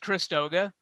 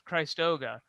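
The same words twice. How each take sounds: First: The first syllable sounds like 'Christmas', a short vowel. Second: The first syllable rhymes with 'Christ', a long vowel. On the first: "like Christmas" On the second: "I assume it's Christ, Christ Christoga"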